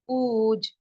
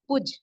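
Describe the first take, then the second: First: The vowel is drawn out long. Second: The vowel is short and quick. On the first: The speaker calls it right. "वाव के sound को हमें थोड़ा ज़्यादा खींचना होता है" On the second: The speaker calls it wrong. "पूज को हम ऐसे भी पढ़ सकते थे"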